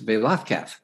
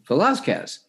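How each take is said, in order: First: The z is said as a th sound. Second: The z is said as a plain z sound. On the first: The speaker calls it right. "The Z is pronounced TH, so it's Velazquez" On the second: The speaker calls it wrong. "if you just kind of looked at it and read it phonetically"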